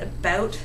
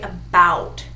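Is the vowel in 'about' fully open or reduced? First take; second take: reduced; fully open. First: The ow vowel is reduced and less open. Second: The ow vowel is fully and clearly enunciated. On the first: This is how Canadians say it. "Canadians, we're just a little lazier about it" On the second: This is how Americans say it. "Americans say about. They really get that ow sound enunciated"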